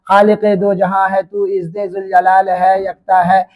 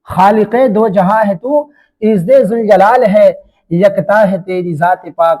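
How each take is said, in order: First: It runs on without pausing after 'jalal hai'. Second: It pauses for breath after 'jalal hai'.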